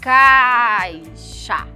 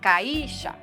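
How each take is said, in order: First: The a is held longer; the i is weak. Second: The i is said as a strong, full vowel. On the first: The speaker calls it right. "Eu não demorei mais no ar? Ele não é a minha vogal mais forte?" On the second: The speaker calls it wrong. "Alguma vez vocês já ouviram alguém falar caixa? Não"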